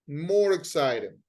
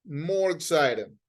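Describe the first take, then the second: The two takes are said the same way.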